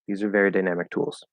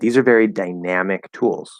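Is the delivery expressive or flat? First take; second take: flat; expressive. First: It is said in a plain, flat way. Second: It is said with lively, varied, expressive feeling.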